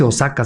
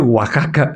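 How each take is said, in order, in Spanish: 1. La x se pronuncia como ks. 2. La x se pronuncia como una h. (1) "no se dice Osaka" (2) "se dice Oaxaca"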